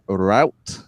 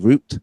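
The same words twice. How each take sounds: First: It is said the American way. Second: It is said the speaker's own non-American way.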